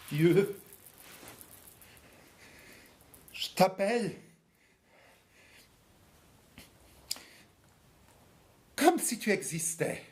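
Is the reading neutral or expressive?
expressive. It is read in an expressive tone.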